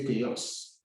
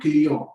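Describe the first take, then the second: First: The final s is pronounced aloud. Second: The final s is not pronounced. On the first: The speaker calls it wrong. "Don't say cueillons" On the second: The speaker calls it right. "the S at the end does not sound"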